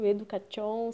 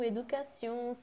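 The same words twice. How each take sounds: First: The ending is said with an sh sound. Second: The ending is said with an s sound. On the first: The speaker calls it wrong. "queira ler ... education" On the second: The speaker calls it right. "Se torna C"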